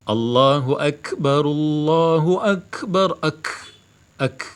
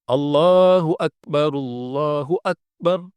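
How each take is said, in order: First: Akbar with an audible puff of air after the k, then "ak, ak" isolated; breathy kaf. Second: Akbar with a closed k and no puff of air, chanted slowly; kaf without breath. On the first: Teacher shows the correct breathy kaf, chanting then isolating it. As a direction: let air escape on the k of Akbar, ak. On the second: Teacher shows the wrong kaf without hams, slow chant. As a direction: stop the k in Akbar dead, no breath. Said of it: "Tidak ada hames". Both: Shown as a demonstration.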